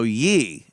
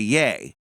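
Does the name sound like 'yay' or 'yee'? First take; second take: yee; yay. First: The vowel sounds like 'ee'. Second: The vowel sounds like 'ay'. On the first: It is the reading the spelling suggests. The speaker calls it wrong. "so you want to go ye" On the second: It is how the man himself says it. The speaker calls it right. "instead of yay"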